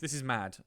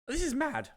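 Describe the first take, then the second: First: It is said in a normal voice. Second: It is said in a put-on voice.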